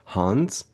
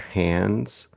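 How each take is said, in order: First: The d sound is dropped entirely. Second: The d sound is clearly pronounced. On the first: "every character just inexplicably says Hans" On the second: "instead of saying hands"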